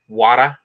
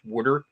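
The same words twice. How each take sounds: First: It is said in a New York accent. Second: It is said in a Philadelphia accent. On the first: "In in New York, it's water" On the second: "Like in Philadelphia, it's water"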